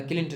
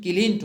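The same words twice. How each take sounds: First: किलिंट with short second vowel, "kilint"; wrong pronunciation. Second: किलिंट with a lengthened second vowel, "kileent"; correct pronunciation. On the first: Teacher rejecting the printed form, किलिंट as "kilint". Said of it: "नहीं". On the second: Teacher giving the right form, किलिंट as "kileent". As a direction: stretch the middle vowel of किलिंट. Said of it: "होता है". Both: Shown as a demonstration.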